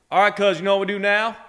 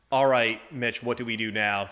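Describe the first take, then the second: First: Put-on thick rural Southern accent, pitched up and louder; thick Tillman Southern accent. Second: Said in the usual way. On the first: Southern accent, Bubba rallying the crew after a bad call. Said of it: "he had this really thick accent". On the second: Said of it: "Just for translation".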